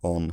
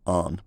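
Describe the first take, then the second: First: The vowel is said with rounded lips. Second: The vowel is said without lip rounding. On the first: This is the older form. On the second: This is the changed form.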